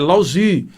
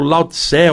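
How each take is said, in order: First: The name is said with Chinese-style sounds. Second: The name is said with Portuguese-style sounds. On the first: "uma amiga minha chinesa falou assim" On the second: "a minha pronúncia é aportuguesada"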